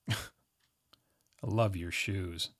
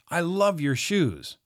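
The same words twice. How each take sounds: First: It is said in a snarky, sarcastic tone. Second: It is said in a warm, sincere tone. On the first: The speaker does not like the shoes. "But try it this way. Immediately turns negative" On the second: The speaker really likes the shoes. "That sounds positive"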